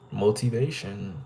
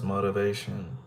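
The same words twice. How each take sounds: First: Every letter is sounded fully, with a crisp T. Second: The T and vowels are reduced and softened. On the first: The speaker calls it wrong. "the T makes that sound, but in this sentence it doesn't though" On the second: The speaker calls it right. "nah, it's motivation"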